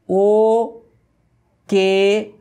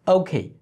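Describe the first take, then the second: First: "ও" and "কে" high, drawn out, pure vowels; loud, separated Bangla "ও", "কে"; wrong pronunciation shown. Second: "ওকে" short and joined as okhei; quick "ওকে" with puffed k; correct pronunciation. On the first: ("ও কে" বাংলা ধাঁচে টেনে, আলাদা করে) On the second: ("ওকে" দ্রুত, ইংরেজি ধাঁচে) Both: Shown as a demonstration. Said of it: "কে না".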